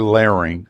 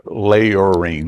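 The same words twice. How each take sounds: First: Said in the usual way. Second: "layering" drawn out the Southern way, like lay-or-ring; "layering" stretched in a Southern accent. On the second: Shown as a demonstration. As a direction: say "layering" with a long Southern drawl on the vowels. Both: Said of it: "that's my southern accent".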